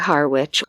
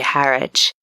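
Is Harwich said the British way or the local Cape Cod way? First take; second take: Cape Cod; British. First: It is said with a local Cape Cod pronunciation. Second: It is said with a British pronunciation. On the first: "We say Harwich or Hawich" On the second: "in the U K, you'd say Harwich"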